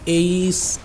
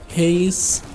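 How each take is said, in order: First: The letter name starts without an h sound. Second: The letter name starts with an h sound. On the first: "I have heard it being pronounced both ways" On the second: "I like to pronounce it as Haze because in my head it sounds cooler"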